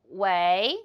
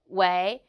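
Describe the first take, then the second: Both takes have the same delivery.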